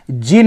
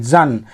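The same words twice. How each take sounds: First: जिन with an "i" vowel, "jin"; wrong syllable. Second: जन with a short "a", "jan"; correct syllable. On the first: Teacher showing the ending to avoid, जिन said "jin". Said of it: "जिन नहीं". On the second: Teacher correcting engine's last syllable, जन said "jan". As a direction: say जन, falling, as the ending of engine. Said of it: "इसका सटीक pronunciation इंजन है". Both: Shown as a demonstration.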